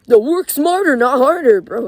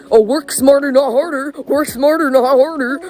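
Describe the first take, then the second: First: High, loud sneering parody of the saying; mock it like a know-it-all; mocking quote. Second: High, loud sing-song mockery of a cliché; mocking quote. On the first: Scoffing at people who say work smarter, sneering imitation. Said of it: "what the fuck". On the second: Mimicking what everyone tells teenagers, high and loud. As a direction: parrot the saying in a whiny mocking voice. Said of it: "you know how everyone says".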